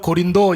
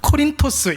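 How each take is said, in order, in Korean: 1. 한국 소리로 발음해요, Go-rin-do. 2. 그리스식으로 발음해요, Ko-rin-tos. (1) "우리나라 발음,발음으로는 고린도 이렇게 발음을 하지만" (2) "그리스 말로는 코린토스 이렇게 발음을 합니다"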